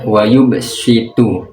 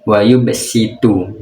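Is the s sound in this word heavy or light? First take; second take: heavy; light. First: The s is said as a heavy, emphatic sound. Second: The s is said as a plain, light sound. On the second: "menggunakan sin"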